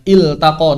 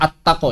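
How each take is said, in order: First: It starts with i, L clearly sounded. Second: It starts with a, L merged into T. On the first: The speaker calls it right. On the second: The speaker calls it wrong. "Ini bukan attaqo ya"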